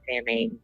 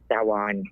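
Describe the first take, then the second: First: The word uses the common everyday pronunciation. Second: The word uses the traditional pronunciation. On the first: This is how outsiders usually say it. The speaker calls it wrong. "I know the Muggles call it Samhain" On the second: This is the authentic way to say it. The speaker calls it right. "it's actually pronounced Samhain"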